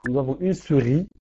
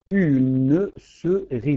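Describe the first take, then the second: First: Said in the usual way. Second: Slow, each syllable set apart and louder; counting syllables slowly. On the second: Shown as a demonstration. Teacher to class, spacing "Une souris" syllable by syllable. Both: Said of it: "Nous avons quatre, euh, quatre syllabes".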